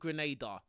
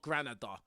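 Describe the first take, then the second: First: The middle syllable has an 'ay' vowel. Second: The middle syllable has an 'ah' vowel. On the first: The speaker calls it right. "called Grenada" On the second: The speaker calls it wrong. "not Granada"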